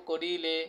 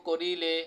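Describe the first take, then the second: Both takes have the same delivery.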